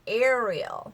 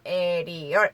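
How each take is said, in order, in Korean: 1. 이름을 영어 소리로 말했어요. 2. 이름을 한국식 음절로 말했어요. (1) "영어로는 Ariel" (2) "에리얼 아주 정직한 발음이죠"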